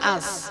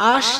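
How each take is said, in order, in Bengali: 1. ব্যঞ্জনবর্ণটি 's' হিসেবে উচ্চারিত হয়। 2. ব্যঞ্জনবর্ণটি 'sh' হিসেবে উচ্চারিত হয়। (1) "মানে সা উচ্চারণ করে" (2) "আস না বলে"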